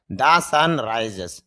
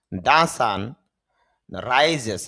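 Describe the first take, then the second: First: "The sun rises" stretched out very slowly; slow repeat. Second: Said in the usual way. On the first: Shown as a demonstration. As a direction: drag each word of "The sun rises" out. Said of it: "teacher repeats example slowly". ("The sun rises" খুব ধীরে টেনে বলা) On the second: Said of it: "যেমন".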